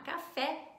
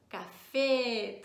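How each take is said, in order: First: The final vowel is an open e. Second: The final vowel is a closed e. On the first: The speaker calls it wrong. "Ao invés de falar café" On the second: The speaker calls it right. "eu digo café"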